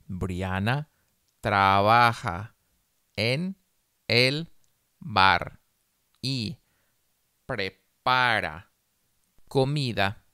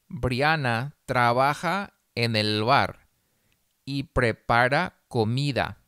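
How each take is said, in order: First: The sentence is read very slowly. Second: The sentence is read slowly. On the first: "una vez muy despacio" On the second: "Una vez despacio"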